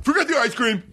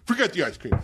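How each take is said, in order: First: High, sharp give-up; fed-up guest cancelling the order; exasperated cancel. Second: Said in the usual way. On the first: Retold or imitated. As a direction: call the whole thing off. Giving up on order.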